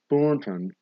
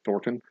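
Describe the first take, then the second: First: The N is clearly pronounced with jaw pushed out. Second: The N is swallowed and barely heard. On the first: The speaker calls it right. "You gotta like lock your jaw and stick it out a little bit" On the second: The speaker calls it wrong. "you swallow the N, and it sounds like"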